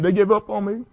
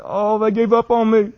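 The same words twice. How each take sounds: First: Higher, strained retelling of a sob; quoting a crying man. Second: Higher, louder, slow wail; anguished crying quote. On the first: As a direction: voice the athlete's despair, lightly. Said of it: "he's bawling, he's crying". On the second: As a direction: cry it out like a broken man. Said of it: "He said". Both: Retold or imitated.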